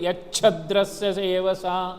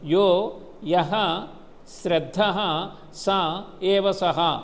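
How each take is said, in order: First: The words are run together with joined sounds. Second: Each word is said separately, without sound joining. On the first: "అదంతా కలిపేటప్పుడు" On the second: "విడదీసి కూడా చదువుకోవచ్చు"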